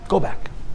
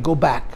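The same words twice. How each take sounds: First: It is said in a gentle, comforting tone. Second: It is said in a tough, forceful tone. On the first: It's a kind reassurance that things will pass. "the Malach who made her feel good" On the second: It's a stern order with no way to escape. "he's speaking rather forcefully"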